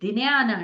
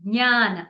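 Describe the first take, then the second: First: It starts with a clear d sound. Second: It starts with neither a j nor a d. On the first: The speaker calls it wrong. "ద కూడా అనకూడదు" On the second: The speaker calls it right. "గ అనకూడదు. జ పలకకూడదు"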